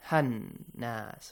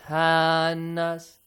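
First: The vowel after h is short and quick. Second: The vowel after h is stretched long. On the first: The speaker calls it right. "Quickly, without stretching the sound of ha" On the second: The speaker calls it wrong. "Not hannas. Because it is alif mad, you got to stretch it"

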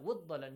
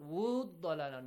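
First: The long vowel is held for one count. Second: The long vowel is held for two counts. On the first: The speaker calls it right. "just one count" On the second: The speaker calls it wrong. "not two counts"

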